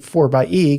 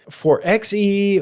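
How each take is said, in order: First: The middle part is said as 'by'. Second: The middle part is said as 'ex'. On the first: The speaker calls it right. "I just took it as obvious that it was supposed to be four by E" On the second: The speaker calls it wrong. "a lot of people thought it was like four X E"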